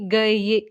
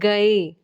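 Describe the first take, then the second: First: The word ends in a 'ye' sound. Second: The word ends in a plain 'e' vowel. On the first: The speaker calls it wrong. "ना कि गए" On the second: The speaker calls it right. "ये की sound नहीं आ रही है, ए की sound आ रही है।"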